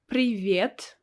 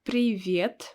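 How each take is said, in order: The two takes are said the same way.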